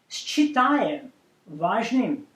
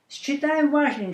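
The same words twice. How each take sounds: First: The phrase is spoken slowly. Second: The phrase is spoken at normal speed. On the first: "I'm going to read that first in Russian language slowly" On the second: "Now I will read it in the normal speed"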